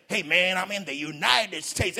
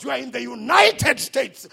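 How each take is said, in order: First: Slow put-on American accent, lightly voiced; mock American accent. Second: Said in the usual way. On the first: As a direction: show off a fake American accent. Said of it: "you have even have that accent".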